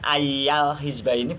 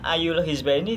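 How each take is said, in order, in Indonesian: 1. Kata pertama berakhir dengan vokal 'a'. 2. Kata pertama berakhir dengan vokal 'u'. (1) "tidak dibaca ayal hizba ini, bukan, tidak dibaca nasab" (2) "Kenyataannya ayul hizba ini"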